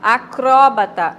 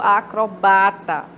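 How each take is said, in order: First: The stress falls on the syllable cro. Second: The stress falls on the syllable ba. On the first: "Do acró" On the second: "para o ba"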